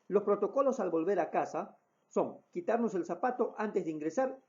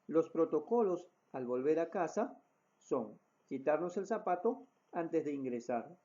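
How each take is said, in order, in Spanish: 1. Se habla a un ritmo rápido. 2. Se habla a un ritmo normal. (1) "Con un ritmo de, de voz mucho más rápido" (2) "utilizando la voz normal o un ritmo de voz normal"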